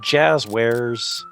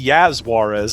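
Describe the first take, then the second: First: The name is said as jazz plus wares. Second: The name starts with a Y sound, Spanish-style.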